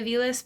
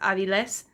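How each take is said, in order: First: The name is said with a usual American pronunciation. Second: The name is said with a Spanish pronunciation. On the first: It is the version most people here understand. "I say Aviles because that's what, you know, Americans say" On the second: It is the name's true form. "but it's actually, it's Aviles"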